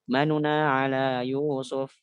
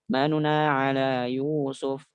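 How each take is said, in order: The two takes are said the same way.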